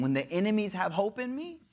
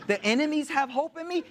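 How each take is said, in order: First: Mild disbelief, rising at the end; dawning dismay, voiced for another; retold dismay. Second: High-pitched, appalled disbelief; retold indignant astonishment; incredulous repeat. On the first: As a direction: let the line climb into a question. Retold dismay at enemy's letter.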